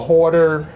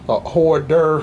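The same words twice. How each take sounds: First: The word is said casually, without careful articulation. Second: The word is said carefully, with clear articulation.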